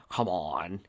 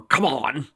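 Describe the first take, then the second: First: Low, soft strained grunt; quiet effortful grunt. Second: Louder, higher pleading cry; urgent plea; desperate plea. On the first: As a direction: push it out under the breath. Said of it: "he grunted". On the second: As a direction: beg the magic to work. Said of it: "Work, you stupid magic". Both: Acted.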